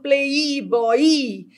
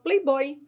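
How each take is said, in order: First: The y is said as a full separate vowel. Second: The y is said as a quick glide. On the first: The speaker calls it wrong. "aqui eu não falo playboy" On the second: The speaker calls it right. "pronuncio como uma semivogal, playboy, rapidinho"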